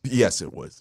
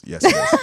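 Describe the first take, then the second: First: Said in the usual way. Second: High-pitched insistent yes; squeaky high. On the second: Pretend. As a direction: jump way up into a squeak.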